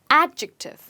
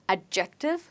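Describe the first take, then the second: First: The stress is on the first syllable. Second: The stress is not on the first syllable. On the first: The speaker calls it right. "but it's adjective. And the stress is on a" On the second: The speaker calls it wrong. "it's not adjective"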